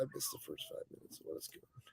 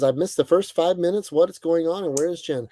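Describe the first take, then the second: First: Muttered half-whisper, reading silently; mumbled to self. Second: Said in the usual way. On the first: Real, not acted. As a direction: read it off the screen under your breath. Reading chat under breath.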